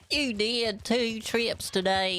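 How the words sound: It is said in a hillbilly accent.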